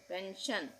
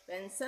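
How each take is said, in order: First: The ending sounds like a single 'shun' syllable. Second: The ending sounds like separate 'see-on' syllables. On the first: The speaker calls it right. "S I O N को भी शन ही बोलेंगे" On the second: The speaker calls it wrong. "पेंशन नहीं बोलेंगे"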